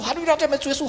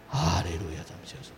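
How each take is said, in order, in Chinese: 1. 说得急切而热切。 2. 说得懒洋洋的，像打哈欠一样。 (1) "因为你很需要嘛" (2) "如果你觉得不很需要呢？"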